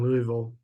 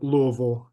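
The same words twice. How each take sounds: First: Louisville is pronounced the way outsiders say it. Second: Louisville is pronounced the way locals say it.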